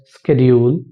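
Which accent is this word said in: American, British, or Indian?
Indian. It is said in an Indian accent. "In Indian accent"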